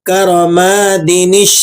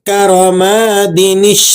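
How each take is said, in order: No difference in how they are said.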